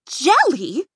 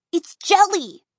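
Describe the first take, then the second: First: "Jelly" with a rising, baffled question tune; puzzled echo. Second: High, loud delighted reveal, "jelly" falling; giggly. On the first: Twins echoing Dot in disbelief, rising "Jelly". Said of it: "echoed the fashion twins". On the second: Dot gleefully revealing the goo, high loud "jelly". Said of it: "Then she giggled". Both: A narrator's reading.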